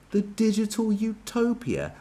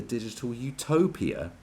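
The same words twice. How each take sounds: First: High and slow, mocking disbelief; scornful echo. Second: Said in the usual way. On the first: Real, not acted. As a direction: repeat it like a ridiculous idea. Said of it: "That's what nutters say".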